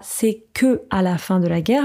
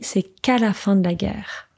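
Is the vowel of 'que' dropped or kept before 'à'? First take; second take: kept; dropped. First: The vowel of 'que' is kept before 'à'. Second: The vowel of 'que' is dropped before 'à'. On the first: The speaker calls it wrong. "On ne dit pas" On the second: The speaker calls it right. "on fait la contraction ici"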